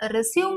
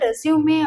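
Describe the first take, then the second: First: The word ends in a plain m sound. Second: The word ends in an extra ay vowel. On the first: The speaker calls it wrong. "ரெஸ்யூம் அப்படின்னு சொல்லாதீங்க" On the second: The speaker calls it right. "ரெஸ்யூமே அப்படின்னு சொல்லுங்க"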